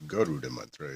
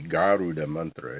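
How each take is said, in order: First: The first vowel of Garuda is short. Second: The first vowel of Garuda is long. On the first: It is the plain noun form, the name itself. "it isn't the same as" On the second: It is the adjective form, belonging to Garuda. "It's the like the Garuda sect or the Garuda-ish mantra. It's adjective"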